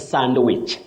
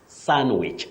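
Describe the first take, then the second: First: The word is said with a D sound. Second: The word is said without a D sound. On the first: The speaker calls it wrong. "not sandwich, the way many people say it" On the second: The speaker calls it right. "The D is silent"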